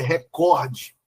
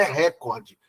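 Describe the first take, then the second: First: ReCORde, alongado e lento na sílaba COR; "recorde" devagar, como paroxítona: re-COR-de; tônica correta em COR. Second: RÉcorde, com a tônica em RÉ; "recorde" dito como proparoxítona, RÉ-cor-de; stress errado na primeira sílaba. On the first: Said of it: "a pronúncia dela é". (sílaba forte no meio de "recorde": COR) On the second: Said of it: "não é recorde". (sílaba forte no começo de "recorde": RÉ) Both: Shown as a demonstration.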